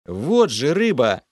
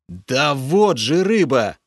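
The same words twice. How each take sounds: First: Loud, slow growled exclamation; angry growl. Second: Loud, slow exasperated outburst; losing patience. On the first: Hero snarls at the cowardly water spirit, angry. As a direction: snarl it out, pointing accusingly. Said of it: "Зло рыкнул я". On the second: Hero loses patience with Lokhar, loud and exasperated. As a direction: finally snap at him. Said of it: "Уже не выдержал я". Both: A narrator's reading.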